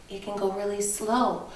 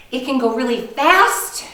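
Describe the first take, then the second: First: Soft, settling down on SLOW; demonstrating slow. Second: Bright lift on the word fast; demonstrating fast. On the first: Teacher showing kindergartners a voice can slow down, soft and falling. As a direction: let slow sink away quietly. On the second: Teacher showing kindergartners a voice can speed up, lively and rising. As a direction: lively push on FAST, ending upward. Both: Shown as a demonstration.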